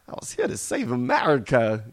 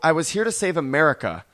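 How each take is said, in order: First: It is said in an altered, put-on voice. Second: It is said in the speaker's ordinary voice.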